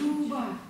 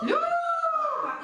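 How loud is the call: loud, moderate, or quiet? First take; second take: quiet; loud. First: The name is called softly, close by. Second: The name is called loudly, strongly projected. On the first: The person is right next to us. "Мы потихонечку" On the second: The person is far away. "Еще дальше"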